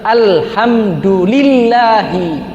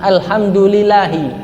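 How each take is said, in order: First: The l sound is held long and doubled. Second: The l sound is short and single. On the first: The speaker calls it right. "Dibaca juga tasdidnya tadi itu" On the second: The speaker calls it wrong. "Jangan alhamdulillahi, lillahi, tidak sah"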